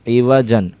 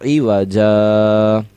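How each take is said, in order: First: The word ends with a final n sound. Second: The word ends on a long a vowel. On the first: The word is read with its full ending. "जीम दो ज़बर जन" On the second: The reader stops or pauses on the word. "वक्फ की वजह से ये जीम अली ज़बर जा हो गया"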